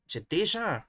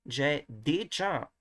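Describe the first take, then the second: First: Higher-pitched déjà, smooth "zh" and no "tch"; affrication removed. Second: Déjà with a hard "tch" in the middle, drawn out; very slow déjà, its "j" hardened to "tch"; affricated French. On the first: Teacher redoes the line after removing affrication, unaffricated déjà. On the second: Teacher tests a sound he finds not very nice, affricated déjà. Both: Shown as a demonstration. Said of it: "remove the affrication".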